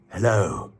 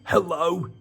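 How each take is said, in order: First: It is said in the reader's normal voice. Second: It is said in a put-on character voice.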